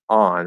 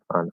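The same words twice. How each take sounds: First: The word is said fully and clearly. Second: The word is said quickly and lightly. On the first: "instead of saying on" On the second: "You can say it really quickly and, and sort of small"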